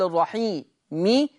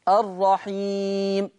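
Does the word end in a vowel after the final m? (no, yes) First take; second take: yes; no. First: The final m is followed by a short i vowel. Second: The final m is silent, with no vowel after it. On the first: The word is joined to what follows. "حرف الميم حال الوصل أقول" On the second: The reciter stops on the word. "عند الوقف عليه"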